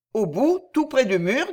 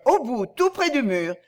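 First: AU BOUT, TOUT PRÈS DU MUR echoed as a question, rising at the end. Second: Said in the usual way. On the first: Acted. Rikki-Tikki checks the hiding place of the eggs, questioning echo. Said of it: "dites-vous?".

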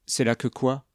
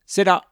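First: Mildly incredulous question, rising at the end. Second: Firm, higher and louder declaration; assured. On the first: Hiker questioning her companion's chosen spot, mildly incredulous. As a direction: question it with a touch of disbelief. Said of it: "incrédule". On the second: Hiker faking map-reading to his companion, assured. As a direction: announce it with confidence. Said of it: "dit d'un ton assuré". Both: A narrator's reading.

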